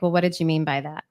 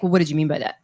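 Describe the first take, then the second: First: It is asked in a gentle, neutral tone. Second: It is asked in a harsh, sharp tone.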